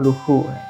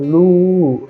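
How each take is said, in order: First: An h sound is heard in the middle. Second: No h sound is heard in the word. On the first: The speaker calls it wrong. "sing ngurahang luhu" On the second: The speaker calls it right. "Ragu ngurahang lu"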